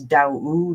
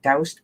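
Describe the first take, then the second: First: The name ends with a d sound. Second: The name ends with an st sound. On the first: This is the real name. The speaker calls it right. "but it's Daoud, like Yahoo" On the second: This is how the spelling looks. The speaker calls it wrong. "It looks like doused"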